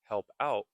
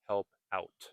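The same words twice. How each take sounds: First: The final T is nearly silent. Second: The final T is clearly pronounced.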